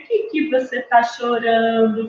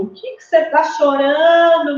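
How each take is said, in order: First: Put-on talking to a baby girl. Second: Put-on higher, hearty baby-directed voice; talking to a baby boy. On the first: Adult to a crying baby in pink, gentle cooing. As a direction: ask a baby girl tenderly, without pushing. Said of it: "vai alguém e fala assim". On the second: Adult to a crying baby in blue, high hearty baby talk. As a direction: ask a baby boy in raised, playful tones. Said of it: "vão lá e falam".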